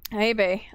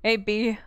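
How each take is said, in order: First: "Bay" said like the word bay; "Bay" with a long ay sound; wrong pronunciation. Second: "B" said like the letter B; "B" with a clear ee sound; corrected name. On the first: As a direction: greet her as "Bay", rhyming with day. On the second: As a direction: greet her as "B", the letter. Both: Shown as a demonstration. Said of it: "not Bay".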